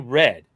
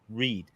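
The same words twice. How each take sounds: First: The vowel is short, like in 'red'. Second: The vowel is long, like in 'reed'. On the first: The message has already been read. The speaker calls it right. "She didn't say read" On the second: It sounds like present tense. The speaker calls it wrong. "but she pronounced it read"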